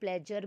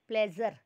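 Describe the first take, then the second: First: The middle consonant is a hard j sound. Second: The middle consonant is a buzzing z sound. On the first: "Hindi वाला जा भी नहीं है, प्लेजर भी नहीं है" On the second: "उर्दू वाला प्लेजर"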